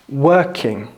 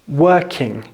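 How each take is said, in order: No difference in how they are said.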